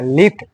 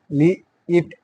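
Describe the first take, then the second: First: Said in the usual way. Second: লি-, ইট in two separated parts; sounding out. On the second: Shown as a demonstration. Teacher pronouncing for the pupils, sounding out. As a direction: break it as লি-, pause, then ইট. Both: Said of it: "আমি একবার করে উচ্চারণ করে".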